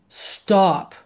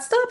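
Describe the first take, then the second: First: The word is said in a deep voice. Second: The word is said in a high-pitched voice. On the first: The dogs will feel it and obey. The speaker calls it right. "There needs to be a stop" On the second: The dogs will not obey it. The speaker calls it wrong. "if it's really high pitched"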